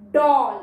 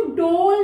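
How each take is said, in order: First: "डॉल" with an open aw sound; open-vowelled, emphatic "डॉल"; short O. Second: "डोल" with a long rounded O; loud, long-O "डोल". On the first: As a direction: say "डॉल" loudly with the O of orange. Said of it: "ओ का short sound है". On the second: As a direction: say "डोल" to rhyme with roll. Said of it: "इसको डोल नहीं पढ़ेंगे". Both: Shown as a demonstration.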